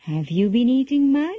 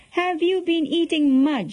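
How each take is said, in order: First: Tentative question rising at the end; mildly anxious. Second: High-pitched stern demand, falling at the end. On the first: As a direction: ask with a touch of worry, voice rising. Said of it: "Yashoda asked anxiously". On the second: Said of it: "she repeated sternly". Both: A narrator's reading.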